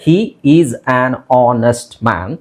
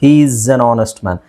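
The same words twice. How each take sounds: First: Each word is said separately and clearly. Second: The words run together into one linked stream. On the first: "ಅದನ್ನು ಬಿಡಿಸಿ ಹೇಳಬೇಕಾದ್ರೆ" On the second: "ಎಲ್ಲ ವರ್ಡ್ಸನ್ನು ಕೂಡಿಸಿದ್ದೀನಿ"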